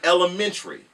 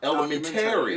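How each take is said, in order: First: The final '-tary' part is not stressed. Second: The final '-tary' part carries extra stress. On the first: This is how people say it in the South. "down south" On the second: This is how people say it in New York. "you guys put more emphasis on the Terry"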